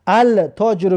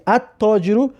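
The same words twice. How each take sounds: First: "التاجرو" as al-taajiru, L sounded as written; spelling pronunciation. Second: "التاجرو" as at-taajiru, L merged into a doubled T; silent L. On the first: Teacher showing how it is written, L sounded in "التاجرو". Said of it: "مینویسی". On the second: Teacher showing how it is pronounced, silent L in "التاجرو". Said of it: "تلفظش میکنی". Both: Shown as a demonstration.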